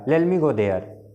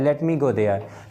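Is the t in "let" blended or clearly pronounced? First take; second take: blended; clear. First: It is quick, with the t blended away. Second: It is careful, with the t clearly pronounced. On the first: This is how it comes out in fast natural speech. "ऐसे fastly बोलते हैं, वो टंग में ऐसे आएगा।" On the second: This is how it is said in Indian-style English. "Indian language में ऐसे टंग में है"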